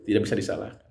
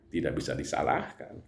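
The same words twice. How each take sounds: First: Tidak bisa disalahkan with Tidak stressed and firm. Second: Said in the usual way. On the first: Shown as a demonstration. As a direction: repeat it, pressing hard on Tidak.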